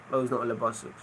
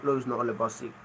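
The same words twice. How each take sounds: The two takes are said the same way.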